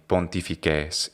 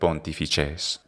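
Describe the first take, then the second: First: It is said in the classical Latin way. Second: It is said in the ecclesiastical Latin way. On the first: "in the classical pronunciation, the only difference is going to be pontifices" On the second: "instead of pontifices"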